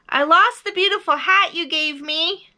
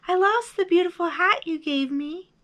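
First: High, loud confession; big high-pitched bear voice; calling out. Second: High echoed reply, less forceful; high held-back voice. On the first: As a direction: call it far across the mountains. Bear calls across to the moon. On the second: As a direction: repeat it like an echo. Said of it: "his own voice echoed". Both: A narrator's reading.

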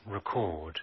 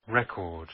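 First: "Record" said ri-KORD, the verb; verb stress. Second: "Record" said REK-ord, the noun; noun stress. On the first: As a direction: stress on the second syllable of "Record", re-CORD. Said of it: "Record verb". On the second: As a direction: stress on the first syllable of "Record", REC-ord. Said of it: "Record noun". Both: Shown as a demonstration.

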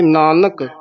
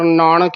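First: ਨਾਨਕ with two plain dental n sounds; both nannas. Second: ਨਾਨਕ with retroflex n, naanak as naaṇak; mistaken nana. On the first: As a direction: keep both n's of ਨਾਨਕ uncurled. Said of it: "ਦੋਵੇਂ ਨੰਨੇ।". (ਨਾਨਕ ਵਿੱਚ ਦੋਵੇਂ ਨੰਨੇ) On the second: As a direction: curl the middle n of ਨਾਨਕ. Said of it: "ਨਾਣੇ ਲਾ ਜਾਂਦੇ ਹਾਂ". (ਨਾਨਕ ਵਿੱਚ ਣਾਣਾ ਬੋਲੋ) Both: Shown as a demonstration.

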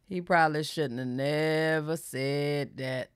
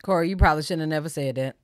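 First: Slow, low, softened words; slow, deliberate. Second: Said in the usual way. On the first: Real, not acted. Commenting on Corey's admission, slow and deliberate. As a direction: draw out "probably shouldn't have never said that" slowly and quietly. Slow, emphatic repeat of remark.

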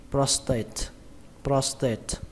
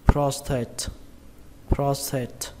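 First: "prostate" with a plain Vietnamese T in "tate"; unaspirated T. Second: "prostate" with a breathed "th"-like T in "tate"; aspirated t. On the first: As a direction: say "prostate" as pros-tết, no puff on the T. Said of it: "các bạn đọc âm T thì nó dễ hơn". (đọc "prostate" với âm T không bật hơi) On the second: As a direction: say "prostate" as pros-tháte, puff on the T. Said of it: "đọc âm T thì nó dễ hơn là âm thờ". (đọc "prostate" với âm "thờ" bật hơi ở "tate") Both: Shown as a demonstration.

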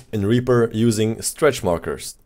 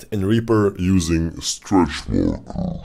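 First: Said in the usual way. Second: Slowing and dragging down in pitch; like a tape grinding to a halt; tape stopping. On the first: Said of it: "I want to start stretching it from here". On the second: Shown as a demonstration. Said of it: "just pull it down".

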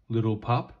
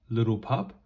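The two takes are said the same way.

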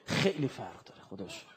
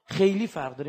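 First: Quiet. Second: خیلی فرق داره restated firmly, louder, خیلی hit; stressed. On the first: Preacher murmuring خیلی فرق داره to mourners, hushed. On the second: Preacher insisting خیلی فرق داره to the congregation, emphatic. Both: Shown as a demonstration. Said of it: "repeated with different force".

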